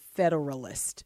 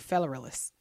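First: Every syllable is pronounced clearly and separately. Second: The syllables are run together and slurred. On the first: The speaker calls it right. "you don't want to enunciate Federalist" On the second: The speaker calls it wrong. "You kind of just want to do Federalist, and that's not how you do it"

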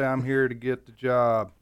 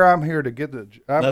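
First: It is said in a flat, low-energy way. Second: It is said in a lively, energetic way. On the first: The speaker calls it wrong. "You don't say" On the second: The speaker calls it right. "you say, here"

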